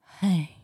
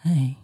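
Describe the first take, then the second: First: It is said in a high-pitched voice. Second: It is said in a low, deep voice.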